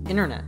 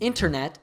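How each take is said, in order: First: The T after the N is dropped. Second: The T after the N is pronounced.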